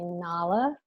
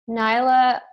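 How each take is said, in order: First: The name is said the film's way. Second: The name is said the family's own way. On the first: This is how the character is named. The speaker calls it right. "It's supposed to be Nala" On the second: This is how the household names the dog. The speaker calls it wrong. "I've been told that we say it wrong"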